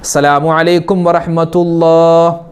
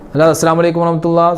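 First: It is said calmly, with a settled pause. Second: It is said hurriedly, with no settled pause. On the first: The speaker calls it right. "ഒരു സുബ്ഹാനല്ലാഹ് പറയുന്ന ഖദറെങ്കിലും അളവെങ്കിലും നമ്മളവിടെ അനക്കമടങ്ങണം" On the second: The speaker calls it wrong. "അങ്ങനെയല്ല"

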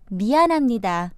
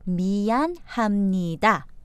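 First: The phrase is said at a natural, normal speed. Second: The phrase is said slowly and carefully.

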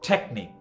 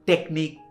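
First: The t is aspirated, like Bengali ঠ. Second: The t is unaspirated, like Bengali ট. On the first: The speaker calls it right. "এটাকে ঠয়ের মতো উচ্চারণ করবেন" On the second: The speaker calls it wrong. "আমরা বলি কি টেকনিক"

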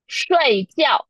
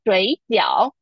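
First: The first syllable falls sharply from high pitch. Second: The first syllable dips low before the second. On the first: It means to sleep. "睡觉 means to sleep" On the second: It means dumpling. "The first one is 水饺, which means dumpling"

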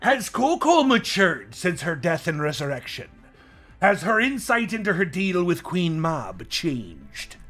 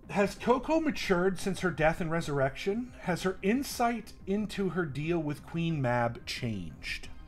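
First: It is read in a put-on voice. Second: It is read in a normal voice.

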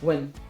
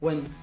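The two takes are said the same way.

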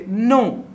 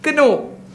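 First: The word starts directly with the n sound. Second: A k sound is heard before the n. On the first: The speaker calls it wrong. "but still you say no" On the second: The speaker calls it right. "which somebody was saying kano"

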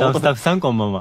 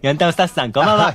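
First: It is said at normal volume. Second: It is said in a loud voice.

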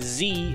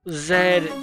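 First: The letter is said as zee. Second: The letter is said as zed. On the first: "Instead of like Z in the US" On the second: "That's the pronunciation for the UK side"

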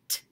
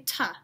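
First: The t sound is short, with no vowel. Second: The t sound is followed by a vowel. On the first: The speaker calls it right. "A very short t sound" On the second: The speaker calls it wrong. "Don't say ta"

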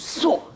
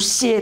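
First: The syllable is pronounced suo. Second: The syllable is pronounced xie. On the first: The speaker calls it right. "读朔" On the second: The speaker calls it wrong. "这不读歇"

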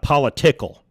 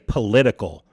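First: The word is pronounced in a garbled way. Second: The word is pronounced in the standard way. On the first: The speaker calls it wrong. "not political" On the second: The speaker calls it right. "Jesus knows how to say political"

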